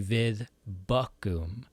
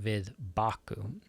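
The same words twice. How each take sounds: First: The verb's first vowel is a rounded umlaut sound. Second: The verb's first vowel is a plain open 'ah'. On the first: The speaker calls it right. "you're going to say" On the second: The speaker calls it wrong.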